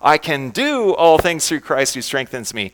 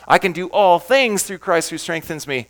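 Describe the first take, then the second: First: The word "do" is stressed. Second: The word "things" is stressed.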